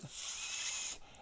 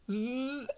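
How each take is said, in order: First: The th is said without voicing. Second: The th is said with voicing. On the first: "the unvoiced is th" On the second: "the voiced is th"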